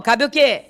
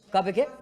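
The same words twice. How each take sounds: First: Said in the usual way. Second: Quiet prompt. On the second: Shown as a demonstration.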